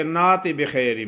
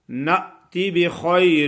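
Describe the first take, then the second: First: نات بخیر with the hamza dropped and a long alif; wrong, no hamza. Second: نأتی with a sharp glottal stop on the hamza; correct hamza catch. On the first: Teacher imitates students skipping the hamza catch. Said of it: "کچھ لوگ ایسے پڑھتے ہیں". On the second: Teacher gives students the correct model, hamza catch. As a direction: recite نأتی with a clear catch. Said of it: "جھٹکے سے ادا ہوتا ہے". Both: Shown as a demonstration.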